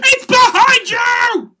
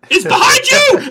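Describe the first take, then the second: First: Slow drawn-out panto shout; panto crowd callback. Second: Loud high pantomime shout; panto crowd callback. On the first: Panto shout repeated slower. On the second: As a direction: yell it like a panto audience. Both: Pretend.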